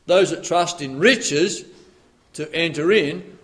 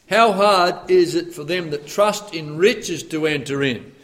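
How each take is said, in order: First: "Those" leaned on, slow and deliberate; preacher weighting "Those" in the verse; stress on those. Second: Said in the usual way. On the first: Shown as a demonstration. "Those that trust in riches" stressed, slow. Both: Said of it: "it depends where you put the emphasis there".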